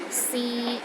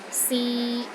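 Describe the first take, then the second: First: The pitch stays level in the middle. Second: The pitch stays level in the middle.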